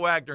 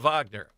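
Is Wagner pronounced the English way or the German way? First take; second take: English; German. First: Wagner is said with an English W sound. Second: Wagner is said with a German V sound. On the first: This is not how the player says his name. The speaker calls it wrong. "He still says he's not a Wagner" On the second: This is how the player says his name. The speaker calls it right. "He's a Wagner"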